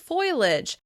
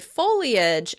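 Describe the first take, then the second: First: The vowel sound comes before the l. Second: The l sound comes before the vowel.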